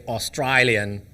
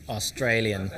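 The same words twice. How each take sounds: First: "Australian" said the Australian way; Australian accent. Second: Said in the usual way. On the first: Shown as a demonstration. Host shows how Australians say it, Australian accent. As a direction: put an Aussie accent on "Australian". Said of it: "as in Australia, they say". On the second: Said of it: "they say Australian".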